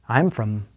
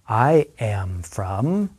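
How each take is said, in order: First: The phrase is spoken quickly, contracted. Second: The phrase is spoken very slowly. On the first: "one more time at a fast pace" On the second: "listen and repeat very slowly after me"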